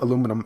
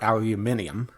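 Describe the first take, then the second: First: It is said the American way, with four syllables. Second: It is said the British way, with five syllables. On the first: "depending on your pronunciation of it" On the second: "the way that British people say things"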